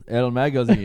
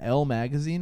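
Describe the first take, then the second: First: The name is said in a Spanish accent. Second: The name is said in an English accent.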